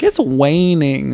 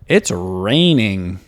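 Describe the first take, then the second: First: The word begins with a W sound. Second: The word begins with a clear R sound. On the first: The child could not yet say the sound. "before I was like" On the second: The child can now say the sound. "that perfect R sound"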